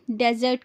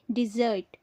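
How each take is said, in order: First: "डेजर्ट" as DEZ-urt; short e at the start of "डेजर्ट"; wrong pronunciation. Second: "डिजर्ट" as di-ZURT; short i, then ZURT in "डिजर्ट"; correct pronunciation. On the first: Teacher showing a common error, "डेजर्ट" as DEZ-urt. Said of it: "डेजर्ट कहते हैं जो गलत है". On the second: Teacher correcting the common error, "डिजर्ट" as di-ZURT. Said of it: "सही उच्चारण है". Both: Shown as a demonstration.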